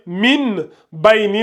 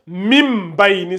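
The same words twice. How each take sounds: First: "min bayni" with a clear n before b; reading without qalb. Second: "mim bayni" with n replaced by a held m; qalb rule applied. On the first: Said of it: "au lieu de lire". (« min bayni » avec un n net) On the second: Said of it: "vous allez lire". (« mim bayni » avec un m tenu) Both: Shown as a demonstration.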